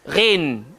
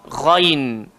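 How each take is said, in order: First: The word starts with an r sound. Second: The word starts with a throaty gh sound. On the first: The speaker calls it wrong. "Ada orang baca re" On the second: The speaker calls it right. "Tapi sebenarnya ghain"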